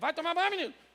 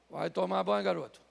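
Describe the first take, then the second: First: It sounds like a passive, repetitive nagging mother. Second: It sounds like an active, commanding father.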